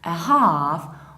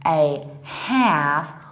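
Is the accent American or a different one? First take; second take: different; American. First: It is said in a non-American accent. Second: It is said in an American accent.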